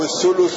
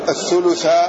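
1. تنتهي الكلمة بحركة الضمة. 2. تنتهي الكلمة بحركة الفتحة. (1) "ورفعه" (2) "يجوز نصب الثلث الأول"

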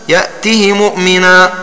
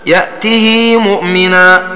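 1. الهاء فيها كسرة قصيرة، غير ممدودة. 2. الهاء فيها كسرة ممدودة إلى حركتين. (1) "النطق بها مكسورة كسرا كاملا من غير إشباع" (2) "الإشباع"

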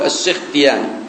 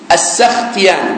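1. المقطع الأول فيه حركة مختلفة. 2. المقطع الأول فيه حركة 'a'. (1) "والمشهور عند كثير من الناس يقول" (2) "هذا هو الصحيح في نطقه بفتح السين"

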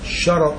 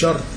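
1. يُسمع حركة قصيرة بين الراء والتاء. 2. لا يُسمع أي حركة بين الراء والتاء. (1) "شرط جمع شرط بفتحتين زي قلم وأقلام" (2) "مش شرط"

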